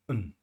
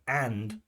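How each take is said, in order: First: The word is said with a reduced vowel. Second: The word is said with a full vowel. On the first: "weak forms" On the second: "we have strong forms"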